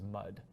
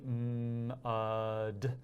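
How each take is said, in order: First: The word is said quickly as one unit. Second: The sounds are stretched out slowly without breaks.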